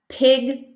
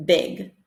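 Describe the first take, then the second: First: "pig" with a strong puff after the p; aspirated p. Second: Said in the usual way. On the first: Shown as a demonstration. Teacher contrasting pig with big in minimal pairs. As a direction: push air on "pig". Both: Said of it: "for the first one".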